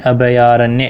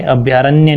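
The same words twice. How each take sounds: First: "अभयारण्य" with bha-ya as two syllables; correct pronunciation. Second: "अभयारण्य" squeezed to abhyaaranya; wrong pronunciation. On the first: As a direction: say "अभयारण्य" as a-bha-yaa-ranya. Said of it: "पूरा भय पूरा आएगा". ("अभयारण्य" में भ पूरा) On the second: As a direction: drop the a before y in "अभयारण्य". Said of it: "अभयारण्य नहीं". ("अभयारण्य" को अभ्यारण्य बोलना) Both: Shown as a demonstration.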